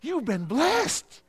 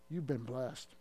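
First: It is said with strong conviction and energy. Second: It is said flatly, without conviction. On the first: The blessing sounds believable. The speaker calls it right. "You got to say" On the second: The blessing does not sound believable. The speaker calls it wrong. "don't say, ... Because that's not too believable"

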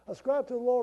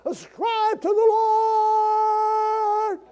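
First: It is read flatly, without much energy. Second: It is proclaimed loudly with great excitement.

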